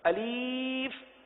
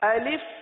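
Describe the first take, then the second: First: The second vowel is a long ee. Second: The second vowel is a short i. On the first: The speaker calls it wrong. "बाज इस तरह भी पढ़ देते हैं" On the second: The speaker calls it right. "तो अलिफ को इस तरह पढ़ेंगे"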